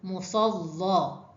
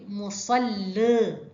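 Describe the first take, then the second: First: The L is thick, with a full open vowel. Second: The L is thin, with a leaning vowel. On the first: "Taglidz fathah" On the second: "tarkik taklil"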